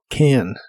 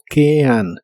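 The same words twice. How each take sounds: First: The word is said quickly, vowels blended together. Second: The word is drawn out slowly, vowels apart. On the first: "esos dos sonidos vocales se unen cuando hablas más rápido" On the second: "Si lo pronuncias muy lento, sonará como can"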